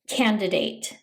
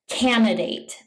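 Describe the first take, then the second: First: The first D sound is pronounced. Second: The first D sound is dropped. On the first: The speaker calls it right. "It has an extra D sound in it" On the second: The speaker calls it wrong. "mispronounce this word by saying candidate"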